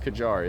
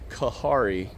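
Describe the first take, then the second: First: The middle consonant is a J sound. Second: The middle consonant is an H sound.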